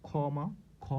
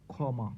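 First: ক্ষমা said as khoma, then খ; ক্ষ sounds as খ. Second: ক্ষমা said as khoma; ক্ষমা with the ক্ষ sounding like খ; pronouncing ক্ষ as খ. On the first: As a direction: show ক্ষমা starts with a খ sound. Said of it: "এটা কেমন উচ্চারণ হচ্ছে". (ক্ষমা-তে খ ধ্বনি) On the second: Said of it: "যেমন আমি যদি বলি". (ক্ষমা উচ্চারণ খ-এর মতো) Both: Shown as a demonstration.

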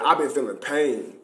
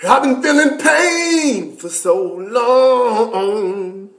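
First: Said in the usual way. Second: Mock-dramatic wail of pain; drawn-out pain. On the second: To viewers about his pain, a slow hammed-up lament.

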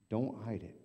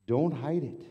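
First: Said in the usual way. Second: Higher and louder call; loud exhortation. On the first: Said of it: "soft repeat". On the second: Real, not acted. Pastor urging the congregation, loud call. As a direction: call it out to the room.

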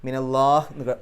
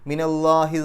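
First: മിനല്ലാഹ് cut off on a silent final h; മിനല്ലാഹ് ended on a silent h; stopping on sukun. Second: മിനല്ലാഹി flowing on with its final i; മിനല്ലാഹി read through, final i kept; reading straight on. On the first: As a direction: stop the reading on മിനല്ലാഹ്, no final vowel. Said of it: "അവസാനത്തെ ആ ഹ എന്ന് സുക്കൂൻ ഇട്ടിട്ട് നിർത്തണം". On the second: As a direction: carry മിനല്ലാഹി straight into the next word. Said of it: "എഴുതിയ പോലെ തന്നെ അങ്ങ് വായിച്ചു പോവുക". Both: Shown as a demonstration.

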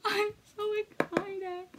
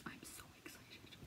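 First: Higher, slow, laughing; excited aloud. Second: Unvoiced excited whisper; whispered excitement. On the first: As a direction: bubble over with excitement. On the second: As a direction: whisper it like a secret thrill. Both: Real, not acted.

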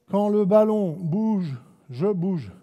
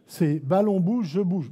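First: Slow, "ballon" and "bouge" stressed; slow slogan. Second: Slow, "bouge" stressed with rising tune; slower slogan. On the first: Coach stating the timing rule slowly. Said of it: "juste pour vous venir sur le basique". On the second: Coach repeating the timing rule slowly. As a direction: repeat the rule to make it stick. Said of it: "le basique du timing". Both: Shown as a demonstration.

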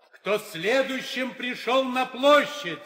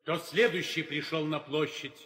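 First: "Кто следующим пришёл на площадь?" called higher, louder and slow, leaning on "площадь"; insistent repeat. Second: Said in the usual way. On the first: Acted. Herald repeating his question to the silent suitors, insistent and loud. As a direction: demand an answer the second time. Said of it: "Я спрашиваю ещё раз".

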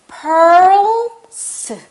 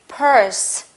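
First: "purse" with a long, pulled-back R, burst P first; drawn-out R. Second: Said in the usual way. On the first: Shown as a demonstration. Teacher showing the tongue pull, "purse" with R drawn out. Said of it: "당겨볼게요". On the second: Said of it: "다시".

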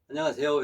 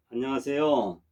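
First: 안녕하세요 with a light rising tune; quick 안녕하세요 ending on a rise, head up; head up greeting. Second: 안녕하세요 falling gently at the end; 안녕하세요 with a settled falling tune, as if bowing; bowing greeting. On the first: Teacher shows the less polite head-up greeting, light rise. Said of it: "이렇게 하는 것보다". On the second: Teacher shows the polite greeting said while bowing, falling tune. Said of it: "말을 하면서 머리를 숙여서 인사를 하는". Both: Shown as a demonstration.

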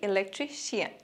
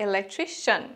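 First: ইলেকট্রিশিয়ান said ending in "shi-an"; the wrong ইলেকট্রিশিয়ান with a full "shian" ending; ইলেকট্রিশিয়ান the usual wrong way, "shi-an"; common mistake. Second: ইলেকট্রিশিয়ান ending in a short "shan"; ইলেকট্রিশিয়ান as "e-lek-TRI-shan"; teacher demo of ইলেকট্রিশিয়ান with the ending "shan"; correct pronunciation. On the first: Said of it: "common mistake". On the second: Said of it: "কিন্তু সঠিক উচ্চারণ". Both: Shown as a demonstration.

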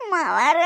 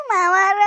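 First: Said in the usual way. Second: Louder tearful call; crying. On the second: Acted. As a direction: sob out the word as a plea. Crying daughter-in-law calls again.

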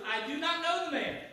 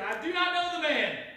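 First: Higher, emphatic denial; sworn denial. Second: High, loud, vehement outburst; cursing denial. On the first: Peter denying Jesus with an oath, emphatic. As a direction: deny it firmly, as if under oath. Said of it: "denied it with an oath". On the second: Peter cursing as he denies Jesus, vehement. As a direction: swear it off forcefully. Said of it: "began to curse and swear". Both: Acted.

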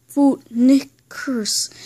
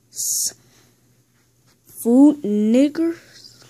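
First: Deliberate, word-by-word repeat; insistent, spaced-out statement; slow clarification. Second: Very slow, rising disbelief; play-acted double-take, pitch climbing at the end; incredulous question. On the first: Pretend. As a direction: separate each syllable, falling at the end. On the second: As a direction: draw it out into a stunned question. Questioning a misheard phrase.

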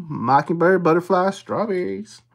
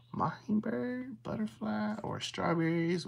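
First: Said in the usual way. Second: Near-whisper, much softer and higher; soft, whispery list-checking; hushed. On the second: Real, not acted. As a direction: hush it right down while searching. Hushed search for the symbols.

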